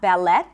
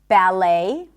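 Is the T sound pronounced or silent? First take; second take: pronounced; silent. First: The T sound is pronounced. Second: The T sound is silent. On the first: The speaker calls it wrong. "Not ballet" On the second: The speaker calls it right. "And also in the words ballet"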